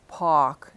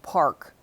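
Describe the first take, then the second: First: The R after the vowel is dropped. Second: The R after the vowel is pronounced. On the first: This is how some New Yorkers say it. "you'll hear some New Yorkers drop the R" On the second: This is how it is said elsewhere. "instead of"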